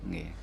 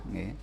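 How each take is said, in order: Both takes have the same delivery.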